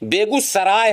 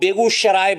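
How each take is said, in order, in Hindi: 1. बीच का व्यंजन सादा 's' ध्वनि है। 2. बीच का व्यंजन 'sh' ध्वनि है। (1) "बेगूसराय है, शराय नहीं है।" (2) "वो बेगूसराय बोलते हैं।"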